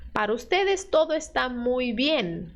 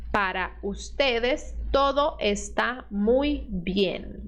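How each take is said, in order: First: Said in the usual way. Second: Each word of Para ustedes todo está muy bien drawn out slowly; slow dictation pace; slower. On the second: Shown as a demonstration. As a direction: read it slowly for the students. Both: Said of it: "vamos mais devagar".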